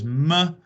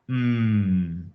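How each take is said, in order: First: An extra vowel follows the m sound. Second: The m sound is said alone. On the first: The speaker calls it wrong. "is incorrect" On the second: The speaker calls it right. "it's mm"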